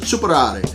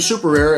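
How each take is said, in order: First: It is said with an Italian pronunciation. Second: It is said with an American pronunciation. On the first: "it's actually Italian, and you would pronounce it Superare" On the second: "that's how we would pronounce it here in the States"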